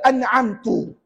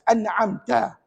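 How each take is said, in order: First: The word ends with a 'tu' sound. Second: The word ends with a 'ta' sound. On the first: The speaker calls it wrong. "jangan baca an'amtu" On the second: The speaker calls it right. "Kena baca dengan baris di atas"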